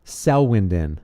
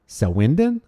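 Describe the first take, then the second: First: "Selwyn" with a falling tune; name tried as statement. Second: "Selwyn" with a rising tune; name tried as question. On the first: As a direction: let "Selwyn" drop at the end like a statement. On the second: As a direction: lift the end of "Selwyn" into a question. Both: Shown as a demonstration. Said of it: "Am I saying your name right?".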